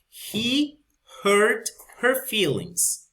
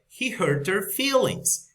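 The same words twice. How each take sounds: First: Each word is said separately with the H in 'her'. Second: The words link and the H in 'her' drops. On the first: "That's when we pronounce uh, very uh, each word" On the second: "in the connected speech"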